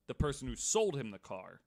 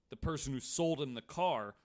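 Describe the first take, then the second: No difference in how they are said.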